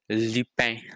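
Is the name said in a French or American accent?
French. The name is said with a French accent.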